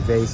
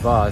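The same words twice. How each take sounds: First: The word is said with an English pronunciation. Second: The word is said with a French pronunciation. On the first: "in English it, it would be vase" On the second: "the real word in French is vase"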